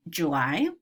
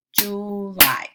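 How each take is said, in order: First: Said in the usual way. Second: "July" drawn out as two beats, Ju, ly; segmented into syllables. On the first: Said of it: "I'll say the word". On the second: Shown as a demonstration. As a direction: clap out each syllable of "July". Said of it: "clap them to count the syllables".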